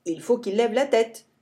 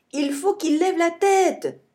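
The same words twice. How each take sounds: First: Said in the usual way. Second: High urgent call from the tree; shouting. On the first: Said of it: "Le bison lève la tête". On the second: A narrator's reading. Billy shouts from the tree, high urgent yell. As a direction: yell the order down. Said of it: "crie Billy".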